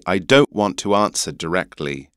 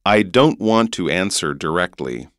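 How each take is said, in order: First: English "answer", broad A and no R; English accent. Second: North American "answer" with final R; North American accent. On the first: Teacher giving the English version, English accent. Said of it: "so in an English accent". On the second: Teacher quizzing host on accents, North American accent. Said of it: "American accent". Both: Shown as a demonstration.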